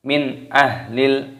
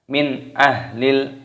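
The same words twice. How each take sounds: First: The n sound is pronounced fully and clearly. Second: The n sound is pronounced fully and clearly.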